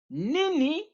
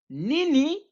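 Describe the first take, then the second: The two takes are said the same way.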